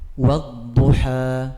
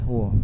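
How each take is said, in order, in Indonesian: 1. Vokalnya terbuka, seperti 'a'. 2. Vokalnya membulat, seperti 'o'. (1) "tapi harus wa" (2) "Jangan wo ya, wo, salah"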